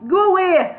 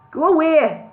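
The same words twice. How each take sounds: First: Much higher, louder Brummie call; Birmingham accent, retried. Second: High, loud mock Birmingham call; a shaky try at Brummie, called out; Birmingham accent attempt. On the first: Bingo calls through the door again, now broader Brummie. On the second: Bingo calls through the door in a mock Birmingham accent. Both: A narrator's reading. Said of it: "I can't do a Birmingham accent".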